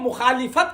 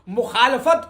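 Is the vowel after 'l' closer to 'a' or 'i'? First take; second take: i; a. First: The vowel after l sounds like i. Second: The vowel after l sounds like a. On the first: The speaker calls it wrong. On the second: The speaker calls it right.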